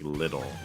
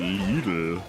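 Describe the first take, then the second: First: It is said with an American pronunciation. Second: It is said with a German pronunciation. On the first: The speaker calls it wrong. "the way that we pronounce like" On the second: The speaker calls it right. "why do you pronounce it Lidl?"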